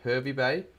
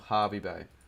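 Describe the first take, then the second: First: The first word starts with a 'her' sound. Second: The first word starts with a 'har' sound.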